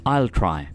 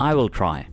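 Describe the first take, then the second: No difference in how they are said.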